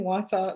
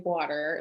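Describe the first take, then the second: First: WATER with no R at the end; Jamaican pronunciation. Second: WATER with a sounded final R; American pronunciation. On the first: Speaker defending her own way of talking, Jamaican pronunciation. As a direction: say WATER the natural Jamaican way, R dropped. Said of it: "There's nothing wrong with saying water". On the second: Speaker showing what she won't adopt, American pronunciation. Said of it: "I don't feel like I have to say". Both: Shown as a demonstration.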